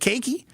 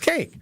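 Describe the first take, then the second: First: An extra vowel is sounded at the end. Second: No extra vowel is sounded at the end. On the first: The speaker calls it wrong. "You don't pronounce it cakey" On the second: The speaker calls it right. "It's cake"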